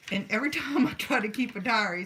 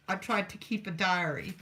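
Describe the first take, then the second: First: Laughs mid-line, a bit faster and louder; real laugh breaking into the words. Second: Said in the usual way. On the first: Real, not acted. Laughs while retelling diary story.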